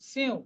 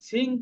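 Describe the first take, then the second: First: The word ends in a nasalized vowel. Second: The word ends in a plain ng sound. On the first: The speaker calls it right. "এটা নাকের সাহায্যে দেবো" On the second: The speaker calls it wrong. "সিং কিন্তু না"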